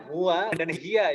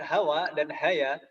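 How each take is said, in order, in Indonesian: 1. Vokal pertama adalah u dan i. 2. Vokal pertama keduanya a. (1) "Ini bacanya huwa dan hiya" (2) "bukan hawa dan haya"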